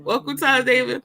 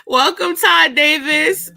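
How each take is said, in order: First: Said in the usual way. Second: Higher, slow, rising announcer welcome; drawn-out showbiz welcome; mock host welcome. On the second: Shown as a demonstration. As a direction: greet him like a talk show host. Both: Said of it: "Oh, hold on".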